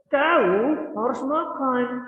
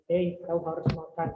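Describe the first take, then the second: First: It is said with stronger, forceful emphasis. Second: It is said as milder advice.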